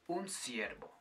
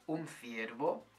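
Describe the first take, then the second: First: It is said with a Latin American pronunciation. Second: It is said with the pronunciation of Spain. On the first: "une personne d'Amérique latine dirait" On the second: "l'exemple que je vous ai dit avant"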